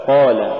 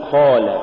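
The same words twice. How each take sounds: First: Said in the usual way. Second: قال with breath after ق, towards "kh"; faulty qaf. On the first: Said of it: "والصواب". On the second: Shown as a demonstration. Teacher showing a recitation error, aspirated qaf in قال. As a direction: let air rasp out of the ق in قال. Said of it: "تقرأ لحنا".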